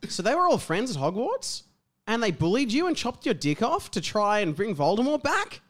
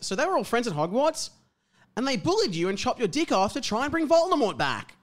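First: It rises like a question. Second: It falls like a statement.

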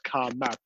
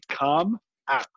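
First: The m runs into the second word. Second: The two words are kept clearly separate. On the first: The speaker calls it wrong. "not Calm map" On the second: The speaker calls it right. "let's enunciate that properly"

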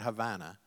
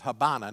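First: The middle consonant is a clear v sound. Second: The middle consonant sounds like a soft b. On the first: The speaker calls it wrong. "not Havana" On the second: The speaker calls it right. "And it was Habana"

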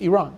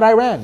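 First: Iran is said the original way. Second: Iran is said the Americanized way. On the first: The speaker calls it right. "It's just Iran" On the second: The speaker calls it wrong. "It's not Iran"

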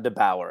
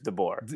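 First: The last syllable rhymes with power. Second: The last syllable sounds like bore. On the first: The speaker calls it wrong. "It's not DeBauer" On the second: The speaker calls it right. "I'm pretty sure it's DeBoer"

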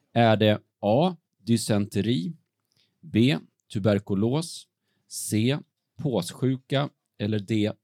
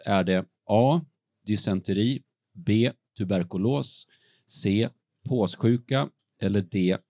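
The two takes are said the same way.

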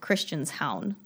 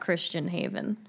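First: The ending sounds like 'hown', rhyming with 'down'. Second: The ending is said like the English word 'haven'. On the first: The speaker calls it right. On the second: The speaker calls it wrong.

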